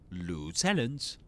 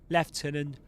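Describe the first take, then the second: First: It is said with an American English accent. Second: It is said with a British English accent.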